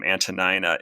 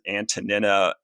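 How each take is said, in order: First: The middle syllable sounds like 'nine'. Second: The middle syllable sounds like 'neen'. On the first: This is the more common English way. "the way you are pronouncing her name" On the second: This imitates the ancient Greek sound. "I pronounce it Antonina as sort of a, a a little bit of an affectation"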